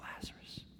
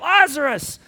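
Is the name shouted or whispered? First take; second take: whispered; shouted. First: The name is whispered softly. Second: The name is shouted loudly. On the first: The call is quiet and intimate. "I think maybe it was a whisper" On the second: The call is a dramatic public command. "He may have yelled it. I mean, like the movies"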